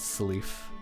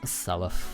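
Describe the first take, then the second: First: The last syllable rhymes with leaf. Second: The last syllable does not rhyme with leaf. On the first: This is how someone else says the name. The speaker calls it wrong. "I think he pronounces it as Salif and Leaf" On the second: This is the correct form of the name. The speaker calls it right. "but no, it's Selef. It is Selef"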